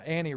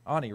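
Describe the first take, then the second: First: "Annie" with a short flat A as in cat; first pronunciation. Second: "Ani" with an open AH first vowel; corrected pronunciation. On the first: Preacher naming who read the Mark passage, "Annie" with a cat vowel. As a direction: say "Annie" to rhyme with "canny". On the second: Preacher correcting the reader's name, "Ani" said AH-nee. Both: Real, not acted. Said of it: "Ani read".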